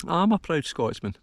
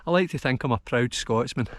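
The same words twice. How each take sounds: First: I'm lifted high in a firm proud repeat; proud restatement. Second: Said in the usual way. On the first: Real, not acted. Hillwalker declaring Scottish pride to his viewers, higher and firmer.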